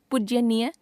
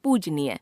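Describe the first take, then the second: First: पूज्यनीय with an added y, "poojyaneeya"; wrong pronunciation. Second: Said in the usual way. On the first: Shown as a demonstration. Teacher showing a common error, पूज्यनीय with extra y. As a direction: slip a y after the j in पूज्यनीय. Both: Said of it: "अशुद्ध".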